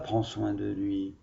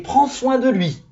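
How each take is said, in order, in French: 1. Elle est dite sur un ton neutre, sans expression exclamative. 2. Elle est dite avec une expression vive et exclamative. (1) "on ne dit pas" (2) "quand il y a des points d'exclamation, on s'exclame"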